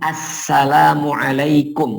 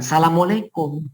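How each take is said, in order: First: The greeting is pronounced fully and carefully. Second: The greeting is rushed and clipped short. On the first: The speaker calls it right. "Lafadz salam itu berbunyi assalamualaikum" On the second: The speaker calls it wrong. "bukan assalamualaikum. ... mau cepat-cepat buru-buru"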